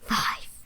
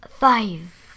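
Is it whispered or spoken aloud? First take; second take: whispered; aloud. First: It is whispered. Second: It is spoken aloud in a normal voice.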